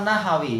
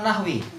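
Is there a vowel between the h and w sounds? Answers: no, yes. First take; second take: yes; no. First: There is an a vowel between h and w. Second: There is no vowel between h and w. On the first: The speaker calls it right. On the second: The speaker calls it wrong.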